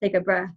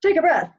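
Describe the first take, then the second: First: A small, weak gasp comes before it. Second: A huge, deep gasp comes before it.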